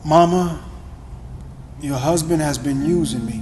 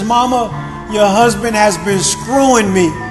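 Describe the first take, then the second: First: It is said quietly and with shame. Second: It is shouted at full volume.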